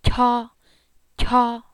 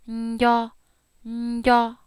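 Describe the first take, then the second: First: "kyo" with a puff of air after the k; aspirated kyo. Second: "nyo" with a soft nasal buzz before it; soft nasalized nyo. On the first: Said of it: "Here's the aspirated kyo". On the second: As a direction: hum into "nyo" gently. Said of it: "the soft nasalized kyo". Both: Shown as a demonstration.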